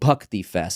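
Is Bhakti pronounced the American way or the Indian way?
Indian. Bhakti is said with an Indian pronunciation. The speaker calls it right. "the true Indian pronunciation"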